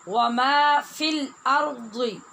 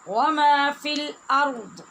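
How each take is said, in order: First: The last word ends with a full vowel. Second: The last word ends on a bare consonant. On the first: The reading continues without stopping. "रा और दाद ये दोनों पूरे हैं।" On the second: The reader stops at this point. "रा और दाद दोनों साकिन हो जाएंगे।"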